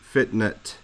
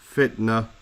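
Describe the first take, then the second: First: The word ends with a clear t sound. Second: The word ends softly without a t sound. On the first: The speaker calls it wrong. "We don't say fitnet" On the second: The speaker calls it right. "at the end of another word like fitna"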